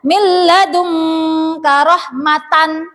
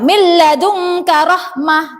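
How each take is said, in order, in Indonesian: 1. Kata terakhir berakhir dengan t lalu n. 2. Kata terakhir berakhir dengan bunyi h yang lembut. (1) "tidak boleh dibaca" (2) "yang tepat adalah dibaca hak sukun"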